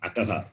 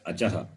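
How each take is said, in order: First: The middle consonant is a 'k' sound. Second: The middle consonant is a 'ch' sound. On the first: The speaker calls it wrong. "not Akaha" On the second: The speaker calls it right. "you have to read it as Achaha"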